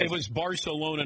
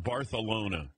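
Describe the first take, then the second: First: Barcelona with an ordinary s sound; plain pronunciation. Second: Barcelona with a th for the c; lisped pronunciation. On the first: Host answering how he handled the Olympics, plain s in Barcelona. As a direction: say Barcelona the American way, with an s. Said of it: "not Barcelona". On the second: Host naming the version he avoided, Barcelona with a th. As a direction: say Barcelona as Bar-thuh-lona. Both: Shown as a demonstration.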